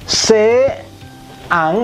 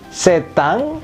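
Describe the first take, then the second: First: The two words are said separately. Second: The two words are linked into one flow.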